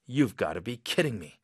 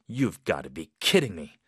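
First: It is said in a heavy, serious tone. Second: It is said in a heavy, serious tone.

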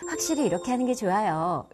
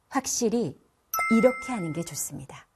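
First: It is said softly and warmly. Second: It is said with forceful emphasis.

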